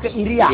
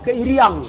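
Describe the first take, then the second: First: The word ends on a bare vowel, no nasal. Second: The word ends with a nasal ng sound. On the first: "Iria Buton" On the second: "Kalau Makassar"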